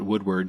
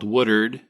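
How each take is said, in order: First: The name is said fully, as it is written. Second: The name is said in a local, shortened way. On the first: This is how outsiders say the name. "to anybody else that can actually read" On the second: This is how locals say the name. "in Oklahoma parlance"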